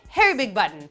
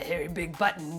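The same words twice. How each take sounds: First: The first word sounds like the name Harry. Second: The first word sounds like the word hairy. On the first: The speaker calls it right. "It's more like Harry Big Potter Big Button" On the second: The speaker calls it wrong. "not like that"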